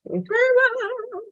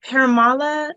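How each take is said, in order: First: Parimala sung out high and slow; corrected pronunciation. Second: Paramala said as a first guess; tentative pronunciation. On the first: Coach repeats student's corrected name, Parimala high and drawn out. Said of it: "It's Parimala". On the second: Coach checks student's name, Paramala said tentatively. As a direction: try Paramala, unsure of the name. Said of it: "is that how you pronounce it?". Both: Real, not acted.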